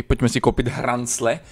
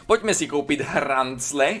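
First: Said in the usual way. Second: Slow, playful stretch on "hrancle"; drawn-out repeat. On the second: Pretend. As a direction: draw out "hrancle" slowly for comic effect. Repeats it with funny drawl. (protáhle vyslovené „hrancle“)

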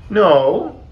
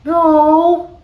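First: High, loud little answer; small voice. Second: Tiny frog's very high, loud squeak; peeping. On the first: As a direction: answer as a shrinking frog, pitched up. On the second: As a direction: peep it out extremely high. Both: A narrator's reading. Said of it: "peeped Frog".

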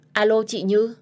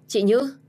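First: Loud, raised first hello on the phone; girl calling her sister on a silent line, loud and rising. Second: Second call, higher and louder, more urgent; girl calling her sister again on a silent line, higher and more urgent. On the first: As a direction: call out to check if she hears. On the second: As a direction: call her name again, pushing harder. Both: Acted.

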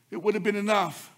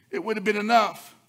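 The two takes are said the same way.

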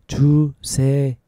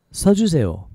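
First: One syllable at a time; slowly. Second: Said in the usual way. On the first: Shown as a demonstration. Teacher showing learners another way to ask for writing, slowly. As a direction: take it slowly, pausing between syllables. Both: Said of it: "take it slowly".

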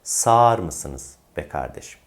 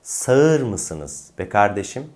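First: "Sağır" as long saar; correct spoken form. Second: "Sağır" as two-vowel sa-ır; wrong as-spelled pronunciation. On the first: Teacher corrects the question, "Sağır" as saar. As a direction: slowly hold the a in "Sağır", no ı. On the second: Teacher shows what not to say, "Sağır" as sa-ır. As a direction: slowly split a and ı in "Sağır". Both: Shown as a demonstration. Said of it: "değil".

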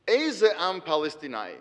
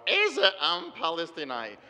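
First: Said in the usual way. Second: Put-on Hebrew phrase slowly, in a flat Midwestern American accent; American Milwaukee accent. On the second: Golda Meir dismissing the Palestinians, in a slow Milwaukee American accent. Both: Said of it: "or in her little American Milwaukee accent".

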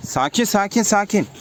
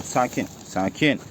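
First: Higher, coaxing repeated calm-down call. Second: Soft, slow, calming hush; soothing the birds. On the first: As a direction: coax them, voice up a bit. Calming birds again. (kuşlara biraz tiz sesle sakin olun diye seslenme) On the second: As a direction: settle them down gently and slowly. (kuşları yumuşak ve yavaş sakinleştirme) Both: Real, not acted.

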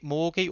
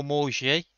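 First: Morgie with a hard g, as in "go"; first option for Morgie, g as in "get". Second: Morgie with a soft "zh" for the g; French-sounding Morgie, g as in "beige". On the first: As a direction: say Morgie as "MOR-ghee". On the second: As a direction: say Morgie as "mor-ZHEE". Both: Shown as a demonstration. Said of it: "not sure how you pronounce".

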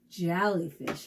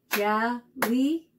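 First: Said in the usual way. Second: "Jellyfish" split into three separate beats; syllable by syllable. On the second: Shown as a demonstration. Teacher clapping syllables with kids, "Jellyfish" broken syllable by syllable. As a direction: clap out "Jellyfish" with a gap after each syllable. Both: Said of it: "fun to clap out the syllables".

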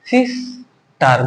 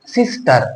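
First: "sister" slowly broken into two beats, সিস and টার; two separate syllables in "sister", drawn apart; split into syllables. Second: Said in the usual way. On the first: Shown as a demonstration. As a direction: say "sister" with a clear gap after সিস. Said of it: "দুইবারে". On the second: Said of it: "একবার উচ্চারণ করতে পারছি?".

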